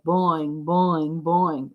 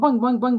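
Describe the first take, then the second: First: The boings are spaced out slowly. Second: The boings follow each other quickly. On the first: The mass on the spring is heavy. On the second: The mass on the spring is light.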